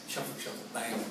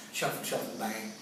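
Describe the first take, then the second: No difference in how they are said.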